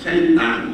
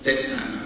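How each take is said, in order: First: The word begins with an sh sound. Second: The word begins with a plain s sound. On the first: The speaker calls it right. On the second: The speaker calls it wrong. "Orang sebut syaitan, orang sebut macam mana?"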